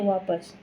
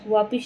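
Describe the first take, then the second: First: The second vowel is 'a'. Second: The second vowel is 'i'. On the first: The speaker calls it right. "होता क्या है वापस" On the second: The speaker calls it wrong. "वापिस नहीं होता है"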